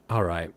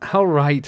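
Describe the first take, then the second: First: Low, understated first try at a hobbit; low trial voice. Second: Higher, louder hobbit agreement; louder trial voice. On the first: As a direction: say it low and easy. Trying voices for Sam. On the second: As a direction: lift it up and push it out. Second try at Sam's voice. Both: Shown as a demonstration.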